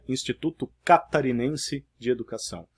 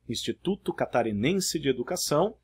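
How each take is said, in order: First: A word is stressed on an unusual syllable. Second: Each word keeps its usual stressed syllable. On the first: The speaker calls it wrong. "alguém colocaria" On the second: The speaker calls it right. "Ao invés de"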